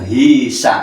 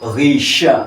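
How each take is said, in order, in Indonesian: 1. Kata ini diawali dengan bunyi h biasa. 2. Kata ini diawali dengan bunyi gh yang berat dari tenggorokan. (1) "Ini kalau hisa udah salah dua" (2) "ghisha bukan hisa"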